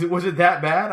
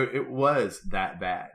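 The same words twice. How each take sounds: First: High, loud imitated wife question; wife asking. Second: Slow, deliberate "It was that bad"; blunt confirmation. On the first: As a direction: ask it high, mimicking the wife. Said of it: "And she goes". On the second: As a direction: spell out "that bad" slowly in your own pitch. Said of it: "I go".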